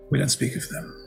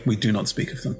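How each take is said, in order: First: It is said in a joking way. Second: It is said in a serious way.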